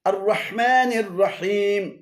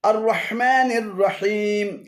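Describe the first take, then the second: No difference in how they are said.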